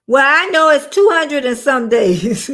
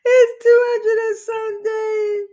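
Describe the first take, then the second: First: Laughing. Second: Excited. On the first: Laughing at herself. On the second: Laughs and exclaims again. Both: Real, not acted.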